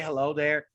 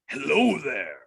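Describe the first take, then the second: First: It is said in his normal voice. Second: It is said in an imitated Kenobi voice.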